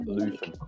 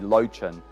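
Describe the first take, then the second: First: The name is said with a German pronunciation. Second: The name is said with an English pronunciation. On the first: The speaker calls it right. "the German pronunciation would be more like Leuven" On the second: The speaker calls it wrong. "it's anglicised to be Lochin"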